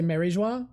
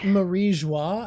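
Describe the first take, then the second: First: The name is said with an American pronunciation. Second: The name is said with a French pronunciation. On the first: "most Americans say Marie Joie" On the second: "I think it's French pronunciation"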